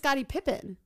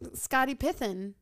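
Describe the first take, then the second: First: The surname's middle consonant is a P sound. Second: The surname's middle consonant is a TH sound. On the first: The speaker calls it right. "his name is Scottie Pippen" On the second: The speaker calls it wrong. "Pithen? Like with a TH?"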